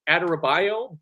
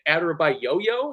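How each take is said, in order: First: The name ends with a single 'yo' syllable. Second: The name ends with an extra 'yo' syllable. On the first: This is how the speaker believed the name was said. "I would have sworn his name was" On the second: This is how the commentators said the name. "my comms were pronouncing it"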